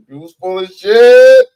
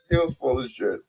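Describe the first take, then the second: First: Loud, angry shout on shit; shouted insult. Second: Said in the usual way. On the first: Real, not acted. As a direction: yell it right in their face.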